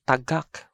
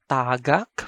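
First: Tagak with short TA, stressed GAK; stress on second syllable. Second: Tagak with long TAA; TAA-gak; stress on first syllable. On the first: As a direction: put the weight on the end of tagak. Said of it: "which is an object that has fallen". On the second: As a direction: stretch the first vowel of tagak. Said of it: "that is tagak for the verb". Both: Shown as a demonstration.

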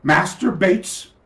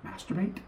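First: "Master Bates" said slowly as two separate words, a title then a name; innocent formal introduction. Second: "Masturbate?" run together as one word, softer, with a questioning rise; hinting at the pun. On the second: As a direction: let "Masturbate?" slide into one knowing word. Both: Retold or imitated. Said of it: "Think about it again".

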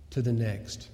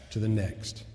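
The two takes are said the same way.

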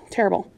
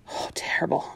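First: Softer whispered echo, falling. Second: Much softer whisper, dropping away; barely voicing it in dismay. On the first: Acted. Florida repeating it in a soft whisper. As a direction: let the word fade out. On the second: Florida whispering as she remembers Joey dying. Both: Recalling Joey's death.

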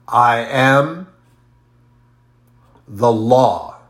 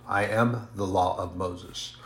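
First: Loud, emphatic declaration of I am the law; declaring. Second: Said in the usual way. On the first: Retold or imitated. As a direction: proclaim it with full force. Quoting Jesus declaring himself.

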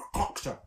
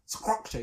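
First: Said in the usual way. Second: Structure said as skructure, a hard K after the S. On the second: Shown as a demonstration. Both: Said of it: "when you put the K there".

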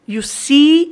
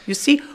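First: "see" with a long, rising ee; teacher stretching the ee in "see"; long vowel. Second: "see" cut short; quick "see" without holding the ee; learner's brief, unstretched "see"; too-short vowel. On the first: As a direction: hold "see" out, pitch climbing. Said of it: "eu preciso desse i". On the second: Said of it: "se você não tem esse input". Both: Shown as a demonstration.

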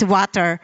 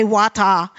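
First: WATER with a clearly sounded final R; Filipino-style water. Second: WATER with an open "tah" ending, no R; non-rhotic water. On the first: Preacher explains her Filipino pronunciation, "water" ending in R. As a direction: say "water" as "wah-ter", lower. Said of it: "I'm Filipino". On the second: Preacher admits a tempting pronunciation, "water" said "waw-tah". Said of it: "I'm tempted to say water". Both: Shown as a demonstration.

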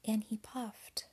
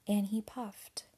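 Both takes have the same delivery.

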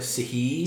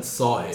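First: "Sahib" squashed to si-HEE; "Sahib" mangled, weak first vowel, stressed hee; mispronounced name. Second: "Sahib" with open ah first, SAH-ib; "Sahib" said properly, stressed opening ah; proper name pronunciation. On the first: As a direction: say "Sahib" with a long ee ending. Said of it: "But it's like Sahib". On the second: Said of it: "my name properly said Sahib". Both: Shown as a demonstration.

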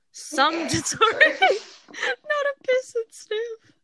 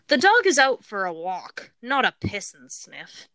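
First: High, slow, cracking up mid-read; trying not to laugh while reading; stifled giggles. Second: Said in the usual way. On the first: Real, not acted. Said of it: "I was trying not to laugh". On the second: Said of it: "I am going to pause for each one".

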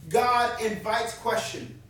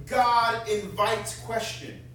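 First: God said slowly and firmly again; steady second emphasis; repeated slow stress on God. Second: God invites question, each word slow and weighted; emphatic declaration, spaced out; slow stress on God. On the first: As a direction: repeat it, leaning hard on God. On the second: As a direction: lean on God, slow and deliberate. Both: Shown as a demonstration.

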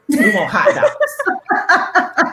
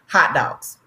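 First: Put-on high, very slow laughing child voice; children demanding hot dogs, slow and laughing; kid demanding. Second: Said in the usual way. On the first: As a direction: drag it out like a whiny kid.

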